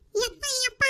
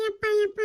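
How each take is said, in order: First: Put-on high, soft pleading child voice; begging child. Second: A touch less high repeat of ಯಪ್ಪ ಯಪ್ಪ; begging child. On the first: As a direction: whine like a little girl begging. Child begging father for treat. (ಬೇಡುವ ಮಗುವಿನ ಧ್ವನಿ) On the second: Acted. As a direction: beg again, a little calmer. (ಮತ್ತೆ ಬೇಡುವ ಮಗು)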